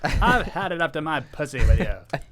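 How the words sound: It is said in a transatlantic accent.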